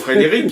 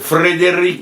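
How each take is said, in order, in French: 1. Le R est simple, avec un accent français standard. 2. Le R est roulé, avec un accent slave. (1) "c'est pas Frédéric" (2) "une espèce de façon de rouler les R"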